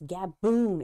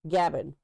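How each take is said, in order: First: The second syllable sounds like 'boon'. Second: The second syllable sounds like 'bin'. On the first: The speaker calls it right. "It's gaboon" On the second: The speaker calls it wrong. "I called it a gabbin viper"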